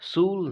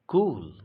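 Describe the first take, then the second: First: The word begins with an s sound. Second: The word begins with a k sound. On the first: The speaker calls it wrong. "सूल नहीं पढ़ते" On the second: The speaker calls it right. "क के लिए तो आपने भी देखा है"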